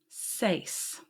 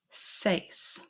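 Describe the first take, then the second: No difference in how they are said.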